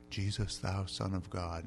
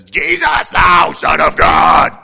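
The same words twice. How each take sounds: First: Soft, low, slow recitation; mild King's language. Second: Huge, high, drawn-out demonic shout; possessed man's scream. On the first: Possessed man wrongly imagined speaking King's English, soft and stately. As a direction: say it politely, far too composed. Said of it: "they don't speak the king's language". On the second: Possessed man rushing out at Jesus, screaming full force. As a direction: explode into a slow, full-force shriek. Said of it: "this is a possessed guy". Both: Acted.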